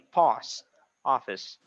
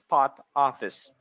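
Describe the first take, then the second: First: The s sound in the first word is pronounced. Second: The s sound in the first word is dropped. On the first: The speaker calls it right. "You say post office" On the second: The speaker calls it wrong. "the one that you're saying is like this. Pot office. No S"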